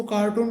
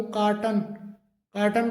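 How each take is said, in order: First: कार्टून with a long oo in the last syllable; common mispronunciation. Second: कार्टन with a short unstressed "tun" ending; correct pronunciation. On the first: Teacher showing students the common error, कार्टून ending in long "toon". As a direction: stretch the end of कार्टून to "-toon". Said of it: "लेकिन इसका सही जो pronunciation". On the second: Teacher modelling the right form, कार्टन ending in short "tun". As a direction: keep the last vowel of कार्टन short, "kaar-tun". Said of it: "इसका सही जो pronunciation". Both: Shown as a demonstration.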